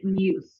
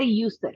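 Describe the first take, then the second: First: The word is said as one short syllable. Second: The word is said with an extra ending syllable. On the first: The speaker calls it right. "We're going to say use" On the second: The speaker calls it wrong. "Don't don't say used"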